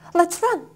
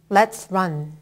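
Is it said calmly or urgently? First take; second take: urgently; calmly. First: It is said urgently and quickly. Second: It is said calmly, at a normal pace.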